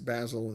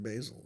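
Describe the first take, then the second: First: The name is said the Italian way. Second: The name is said the American way. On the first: This is how the person's own name is said. The speaker calls it right. "I'm sure it's Basil" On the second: This is how an American would say the name. The speaker calls it wrong. "instead of Basil"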